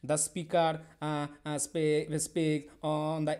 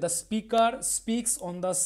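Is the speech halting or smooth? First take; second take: halting; smooth. First: It is spoken haltingly with breaks. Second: It is spoken smoothly without breaks. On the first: The speaker calls it wrong. "যদি এরকম করে বলি তাহলে কিন্তু এটা fluency থাকলো না" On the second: The speaker calls it right. "এই যে একটা ফ্লুয়েন্ট ফ্লুয়েন্সি থাকলো আমার"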